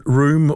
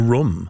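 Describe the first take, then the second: First: "room" with a long oo, as in boot; "room" rhyming with boom; long vowel. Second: "room" with a short vowel, like "rum"; "room" said as a quick "rum". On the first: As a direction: draw out the oo of "room". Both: Shown as a demonstration. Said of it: "is it room or room".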